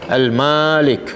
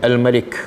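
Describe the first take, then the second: First: The first vowel is long. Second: Both vowels are short. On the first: "ma panjang" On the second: "ma pun pendek, lam pun pendek"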